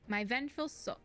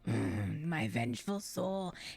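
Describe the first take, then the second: First: It is read in the speaker's ordinary voice. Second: It is read in a put-on character voice.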